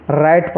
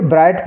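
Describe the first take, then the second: First: "राइट" starting cleanly on R, W silent; correct silent W. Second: "ब्राइट" with a wrong B sound before R; children's misreading. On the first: Shown as a demonstration. Teacher giving the only right reading, "राइट" with silent W. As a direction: say "राइट" with no B at the front. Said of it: "इसको only राइट पढ़ना है". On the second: Retold or imitated. Teacher quoting some children's mistake, "ब्राइट" with an added B. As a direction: imitate the mistake "ब्राइट", B for silent W. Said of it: "ब्राइट गलत हो जाएगा".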